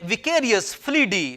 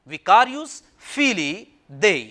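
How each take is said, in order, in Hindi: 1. अंत एक ही शब्द में सिमट जाता है, 'fleedee'। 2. अंत दो शब्दों में है, 'feelee day'। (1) "ये विकेरियस फ्लीडी नहीं है" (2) "ये इसका सही तलफ़ुज़ है"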